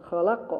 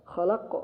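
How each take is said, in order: Both takes have the same delivery.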